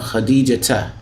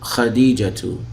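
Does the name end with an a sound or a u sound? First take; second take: a sound; u sound. First: The name ends with an a vowel. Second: The name ends with a u vowel. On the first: The speaker calls it right. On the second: The speaker calls it wrong.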